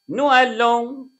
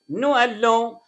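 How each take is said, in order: No difference in how they are said.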